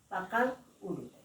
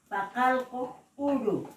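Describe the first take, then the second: First: The first word ends without the final vowel. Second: The first word ends with a final o vowel. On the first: "Se puede decir también pacal simplemente" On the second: "es mejor que aprendan con la O"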